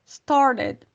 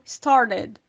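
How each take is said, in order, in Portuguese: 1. O T do meio é um tap rápido, parecido com r. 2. O T do meio é um tap rápido, parecido com r.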